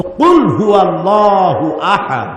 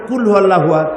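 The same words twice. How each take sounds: First: Careful, measured qaf in কুল; correct Arabic pronunciation. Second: কুল with a plain front k, quick; wrong-letter demo, k instead of q in কুল; mispronounced qaf. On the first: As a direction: recite slowly, কুল starting on Arabic qaf. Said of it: "মানে হচ্ছে বলো". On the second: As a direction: say কুল hurriedly with an ordinary k. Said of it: "আর কুল মানে খাও". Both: Shown as a demonstration.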